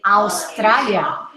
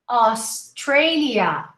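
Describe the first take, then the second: First: The first vowel glides like 'ow'. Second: The first vowel is a plain open 'ah'. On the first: The speaker calls it wrong. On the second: The speaker calls it right.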